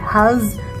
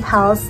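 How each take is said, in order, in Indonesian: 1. Huruf s-nya bersuara seperti z. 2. Huruf s-nya adalah s biasa yang mendesis. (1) "S-nya jangan kayak Z, jangan Hals" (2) "tapi Hals kayak S biasa"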